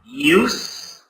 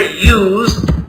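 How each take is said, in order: First: The word is said with an S sound. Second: The word is said with a Z sound. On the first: "in one you hear an S" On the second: "it is pronounced with a Z sound"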